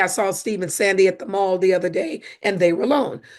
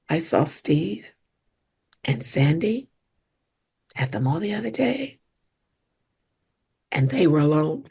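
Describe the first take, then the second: First: It is said in a light, casual tone. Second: It is said in a loaded, suggestive tone. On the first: Nothing unusual happened. "Even the tone" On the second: Something may be going on between them. "Same words, but different tone that sends a different message"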